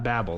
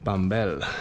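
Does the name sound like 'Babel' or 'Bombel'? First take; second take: Babel; Bombel. First: The name sounds like the word Babel. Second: The name sounds like Bombel, with an m. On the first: The speaker calls it wrong. "Not Babel, like the Tower of Babel" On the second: The speaker calls it right. "English pronunciation would be something like Bombel"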